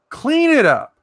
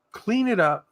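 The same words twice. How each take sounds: First: Much higher, forceful repeat; emphatic order. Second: Said in the usual way. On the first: Shown as a demonstration. Ordering Mama Beth into the shower, emphatic high-pitched command. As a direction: push CLEAN IT UP high and hard.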